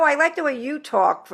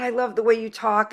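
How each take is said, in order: First: Retold reply with YOU picked out; emphasis on "you", as a friendly comeback; stress on YOU. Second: Said in the usual way. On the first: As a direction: turn the compliment back by leaning on YOU. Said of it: "and she's, No". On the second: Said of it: "so I was like".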